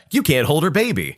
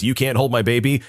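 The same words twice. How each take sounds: First: You said higher and hard; stress on You. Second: Said in the usual way. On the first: Shown as a demonstration. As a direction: hit You, then land the rest firmly. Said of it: "guess what?". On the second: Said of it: "when a mom says".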